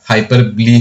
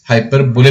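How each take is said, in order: First: The word ends in two syllables, 'bo-lee'. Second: The word ends in one syllable like 'bole'. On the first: The speaker calls it right. "इसका proper pronunciation हाइपरबली है" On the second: The speaker calls it wrong. "Spelling में भले ही हाइपर बोले लगता हो"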